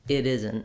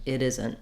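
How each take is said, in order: The two takes are said the same way.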